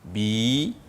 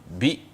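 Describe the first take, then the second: First: The vowel i is drawn out long. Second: The vowel i is said short. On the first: "On va maintenant tirer le bi à l'aide d'un ya" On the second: "Le bi est prononcé de manière courte parce que c'est la voyelle courte"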